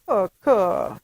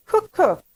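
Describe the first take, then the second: First: Lightly imitated toddler call, falling away; a touch of baby talk, less insistent. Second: Put-on high, loud toddler demand; demanding baby. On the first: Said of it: "and saying". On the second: Baby pointing at the cookie jar, demanding. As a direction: imitate a baby insisting on a treat. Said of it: "in that demanding tone of voice".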